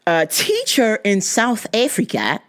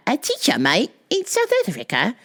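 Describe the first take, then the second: First: Said in the usual way. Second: Put-on shaky stab at an Australian accent; hammed-up Aussie accent; attempted Australian accent. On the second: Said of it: "Wait, that's not Australian".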